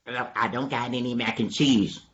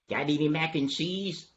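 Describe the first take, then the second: First: Slightly lowered answering voice; subdued denial. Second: Slightly raised, soft asking voice; hopeful question. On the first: Dog answers donkey's food question, slightly lowered denial. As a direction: let it sink for the reply. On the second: Donkey quizzes dog about food, lightly raised question. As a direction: lift it a little, hopefully. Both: Acted.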